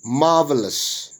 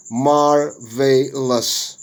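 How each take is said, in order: First: Said in the usual way. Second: "marvelous" slowly split as mar, vay, lus; syllable by syllable. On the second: Shown as a demonstration. Teacher showing syllable division, "marvelous" broken into syllables. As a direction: say "marvelous" slowly in three separate beats. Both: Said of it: "Syllable division".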